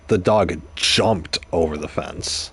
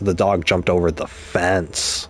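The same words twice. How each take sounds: First: The stress is on "jumped". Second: The stress is on "fence".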